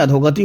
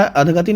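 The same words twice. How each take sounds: First: अधोगति with the o sound after अध; अधोगति clearly, with o in the middle; correct form. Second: अधगति without the o sound; अधगति clipped, no o after अध; wrong form. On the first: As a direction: say अधोगति as adh-o-gati, not अधगति. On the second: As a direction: say अधगति as adh-gati, the wrong way shown. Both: Shown as a demonstration. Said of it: "अधगति नहीं अधोगति होता है".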